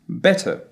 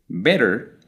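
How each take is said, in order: First: The final r sound is dropped. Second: The final r sound is pronounced.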